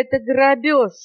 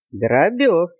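First: ГРАБЁЖ exclaimed high; outraged parrot cry. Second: Musing repeat at normal pitch; thoughtful boa. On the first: Parrot accusing monkey of robbery, crying out. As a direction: protest in a high, indignant parrot voice. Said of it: "закричал попугай". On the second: Boa pondering the parrot's accusation, thoughtful. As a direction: turn the word over pensively. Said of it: "задумчиво сказал удав". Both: A narrator's reading.

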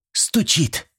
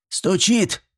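First: High-starting, falling "стучит"; assured young woman's answer; confident confirmation. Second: High, rising demand on "стучит"; stern granny double-checking; menacing question. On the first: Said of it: "уверенно произнесла Зинаида". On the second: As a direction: ask "стучит" sternly, pitch climbing. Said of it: "грозно переспросила Степанида". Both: A narrator's reading.

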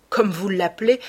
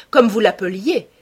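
First: Said in the usual way. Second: L'appeliez louder and higher, past tense pressed; stress on l'appeliez. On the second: Acted. Hallward stresses l'appeliez to the painter's lost idol, pressed and louder. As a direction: Hallward bitterly corrects Dorian to l'appeliez, louder. Hallward corrects his own word.

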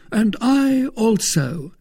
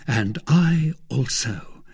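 First: Slow, high-pitched, emphatic agreement; eager assent. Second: Said in the usual way. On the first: A narrator's reading. Porthos joining Athos to follow D'Artagnan, eager assent. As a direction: chime in high and drawn out.

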